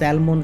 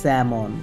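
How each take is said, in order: First: The L is clearly sounded. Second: The L is silent. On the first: The speaker calls it wrong. "আমরা প্রায় কিন্তু স্যালমন fish বলি" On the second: The speaker calls it right. "উচ্চারণটা হবে স্যামন"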